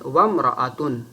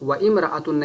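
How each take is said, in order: First: The two words are joined into one linked word. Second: The two words are said separately, not linked. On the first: The speaker calls it right. "जब वाव को इम्रअतुन में मिलाएंगे" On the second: The speaker calls it wrong. "उसको व इम्रअतुन नहीं कहेंगे"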